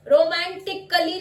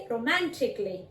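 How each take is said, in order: First: रोमांटिकली with a held क and an extra अ before ली; wrong extra syllable. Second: रोमांटिकली said ro-MAN-tik-lee, no अ before ली; silent a. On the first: Teacher shows the wrong रोमांटिकली. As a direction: sound a full अ in रोमांटिकली. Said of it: "रोमांटिकली नहीं बोलेंगे". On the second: Teacher models रोमांटिकली with a silent a. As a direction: drop the a in रोमांटिकली. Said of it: "अ का sound silent हो जाएगा". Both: Shown as a demonstration.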